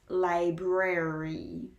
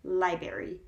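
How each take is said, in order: First: Library slowly with both R's fully sounded; correct, both R's. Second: Library said as "lie-berry", losing the first R; mispronounced, R dropped. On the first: Teacher correcting the mispronunciation, library with both R's. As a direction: draw out library as lie-brare-ree. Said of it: "when it's library". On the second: Showing how people tend to mispronounce it, library as lie-berry. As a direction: drop the first R of library, said quickly. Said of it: "people tend to mispronounce it as library". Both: Shown as a demonstration.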